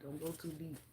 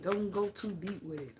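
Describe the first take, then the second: First: Much softer, trailing off; quiet echo of the advice; soft repeat. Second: Said in the usual way. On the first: Shown as a demonstration. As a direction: say it again near-hushed.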